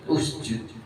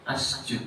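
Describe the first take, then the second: First: The word begins with a u vowel. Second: The word begins with an a vowel. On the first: The speaker calls it right. "tapi usjud" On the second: The speaker calls it wrong. "enggak boleh asjud"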